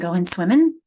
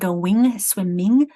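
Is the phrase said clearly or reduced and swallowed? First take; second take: reduced; clear. First: The sounds are reduced and run together. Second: Every sound is pronounced clearly and fully.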